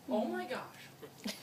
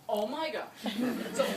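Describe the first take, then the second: First: Slow drawn-out oh my gosh; a lightly voiced David, stretched slow; David imitation. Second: Laughing. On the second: Retold or imitated. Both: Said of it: "that's my David imitation".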